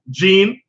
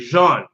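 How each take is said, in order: First: The name is said the English way. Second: The name is said the Haitian French way. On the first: This is how an English reader says the spelling. "I was schooled in the English language. I look at the shit, I say J E A N" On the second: This is how Haitian speakers say the name. "they would say Jean"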